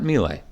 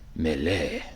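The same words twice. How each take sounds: First: The word is pronounced in an English way. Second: The word is pronounced in a French way. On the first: The speaker calls it wrong. "it's not Melee" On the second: The speaker calls it right. "It's apparently it's a French word, so Melee"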